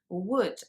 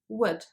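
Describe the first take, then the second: First: The vowel is drawn out long. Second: The vowel is very short and subtle. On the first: The speaker calls it wrong. "as if there was a double O sound in there" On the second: The speaker calls it right. "those sounds are much shorter"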